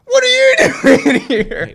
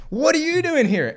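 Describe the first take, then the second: First: Very high, loud, slow, squealed through laughter; laughing echo. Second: High, loud startled demand; startled shout. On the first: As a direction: throw the question back, cracking up. Burglar echoes the kid's question. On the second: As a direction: bark the question at the intruder. Kid confronts the burglar. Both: Acted.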